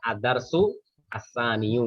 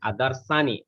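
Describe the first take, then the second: First: The word endings carry full final vowels. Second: The word endings are cut off without vowels. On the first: "harokatnya apa? Maka" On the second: "kalau disukunkan"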